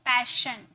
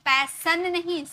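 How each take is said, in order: First: The middle consonant is an sh sound. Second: The middle consonant is a plain s sound. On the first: The speaker calls it right. "श में pronounce करते हैं" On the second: The speaker calls it wrong.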